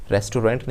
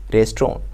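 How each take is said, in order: First: "रेस्टोरेंट" as res-tu-rent, with the final nt spoken in full; "रेस्टोरेंट" said the common Indian way, all syllables sounded; wrong pronunciation. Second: "रेस्टोरेंट" as RES-tron, squeezed into two syllables; "रेस्टोरेंट" said the English way, RES-tron with a light end; correct pronunciation. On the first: Teacher gives the mistaken "रेस्टोरेंट" first. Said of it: "रेस्टोरेंट नहीं होता". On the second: Teacher models the right "रेस्टोरेंट" for learners. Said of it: "that is restaurant". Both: Shown as a demonstration.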